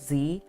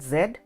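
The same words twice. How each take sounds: First: The letter name is said the American way. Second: The letter name is said the British way. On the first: "here in uh, America we call it Z" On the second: "in the British English style, we call it Z"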